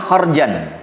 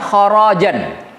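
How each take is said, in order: First: The r sound has no vowel after it. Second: The r sound is followed by an a vowel. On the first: A payment given only once. "Seperti qiraatnya Hafs an Asim" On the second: A payment owed repeatedly. "Jadi ro-nya dihidupkan, setelah ro ada a"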